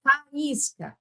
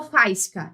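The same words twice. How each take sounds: First: "faísca" as fa-ÍS-ca, vowels separate; teacher splitting "faísca" into three syllables; hiatus pronunciation. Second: "faísca" run together as FAIS-ca; wrong diphthong version. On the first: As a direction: stress a distinct "í" after the a in "faísca". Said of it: "Eu pronuncio as, todas elas". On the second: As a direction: merge a and i of "faísca" into one stressed syllable. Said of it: "eu não falo faísca". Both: Shown as a demonstration.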